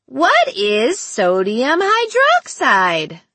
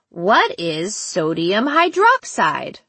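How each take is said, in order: First: Slow, swooping sing-song question; sing-song child. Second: Put-on slow, deliberate childlike quiz question; child without sing-song. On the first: Captor repeating his quiz question, slow childish sing-song. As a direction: chant it slowly, drawing out each word high. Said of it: "reverted to the sing-song voice". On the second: Captor putting the first question, slow child's voice. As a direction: ask it slowly as a different child. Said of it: "The sing-song quality was gone". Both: A narrator's reading.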